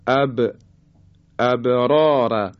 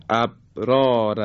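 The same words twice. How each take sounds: First: "ابرار" with ب released in a short echoing bounce; qalqalah on ب. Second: "ابرار" with ب stopped dead, no bounce; missing qalqalah. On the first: Teacher models the letter ب in "ابرار", bouncing qalqalah. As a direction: let the ب of "ابرار" bounce, long drawn final syllable. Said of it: "حالا اگه قلقله نیاری". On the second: Teacher shows the mistake in "ابرار", qalqalah left out. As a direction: shut the ب of "ابرار" without any echo release. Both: Shown as a demonstration.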